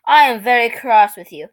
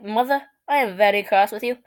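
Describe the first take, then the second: First: Mock British accent; lightly hammed British accent; strong British accent. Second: Imitating a proper British accent; mock-British delivery; strong British accent. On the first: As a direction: put on a British child's scolding. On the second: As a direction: play the cross British toddler. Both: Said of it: "in a strong British accent".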